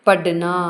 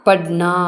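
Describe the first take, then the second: Both takes have the same delivery.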